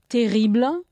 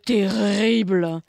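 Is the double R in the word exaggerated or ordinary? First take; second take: ordinary; exaggerated. First: The double R is pronounced like an ordinary R. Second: The double R is pronounced with exaggerated force. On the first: "double R or single R is said pretty much the same thing" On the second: "Unless you want to exaggerate"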